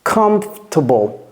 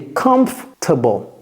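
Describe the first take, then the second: No difference in how they are said.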